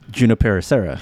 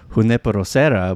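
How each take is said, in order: First: Junipero begins with a hard English J sound. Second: Junipero begins with a soft H-like sound.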